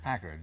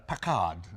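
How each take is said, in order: First: The name is said in a non-British accent. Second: The name is said in a British accent. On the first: The speaker calls it right. "No, it's a Packard" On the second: The speaker calls it wrong. "when Britons say uh, Packard, they go"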